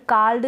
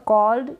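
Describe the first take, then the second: First: कॉल्ड said wrongly as "kald" with an open a; wrong pronunciation. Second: कॉल्ड said as "kold" with a rounded o; correct pronunciation. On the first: Teacher showing students the wrong way, saying कॉल्ड as "kald". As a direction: demonstrate the mistake: कॉल्ड as "kald". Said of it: "कॉल्ड ना पढ़ें". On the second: Teacher giving students the right form, कॉल्ड as "kold". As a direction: model it carefully: कॉल्ड as "kold". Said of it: "कॉल्ड गलत हो जाएगा". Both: Shown as a demonstration.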